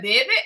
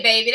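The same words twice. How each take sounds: First: Put-on "baby" squeezed into "bibbih"; mock-accented "baby" as "bibbih"; forced accent pronunciation. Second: Said in the usual way. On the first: Shown as a demonstration. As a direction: say "baby" with short i vowels, like "bibbih". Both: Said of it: "you know how they say".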